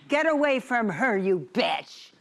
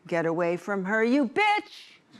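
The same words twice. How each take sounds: First: The voice falls at the end. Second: The voice does not fall at the end.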